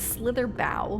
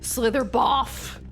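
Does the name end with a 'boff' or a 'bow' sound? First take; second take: bow; boff. First: The last syllable ends with an 'oh' sound. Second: The last syllable ends with an 'off' sound. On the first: The speaker calls it right. "But okay, I know. It's Slither Bow" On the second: The speaker calls it wrong. "some words that are spelled like that have the off sound"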